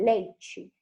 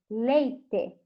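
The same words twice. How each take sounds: First: It is said in a Rio de Janeiro accent. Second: It is said in an inland Brazilian accent. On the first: "eu morei no Rio de Janeiro por três anos e eles falavam" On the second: "aqui onde eu moro, que é mais no interior, eles falam"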